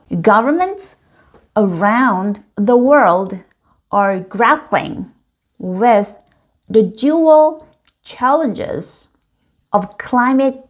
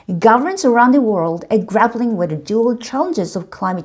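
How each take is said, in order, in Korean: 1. 각 단어를 아주 천천히 정확하게 읽어요. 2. 대화할 때의 보통 속도로 읽어요. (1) "단어 하나하나를 굉장히 천천히 정확하게 읽어보는" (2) "원래 속도대로 한번 읽어보는 거죠"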